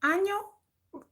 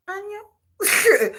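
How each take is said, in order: First: High, soft mock hello; high girlish answer. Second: High mock hello on the phone; high girlish answer. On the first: Plays the woman answering. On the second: Woman answering again.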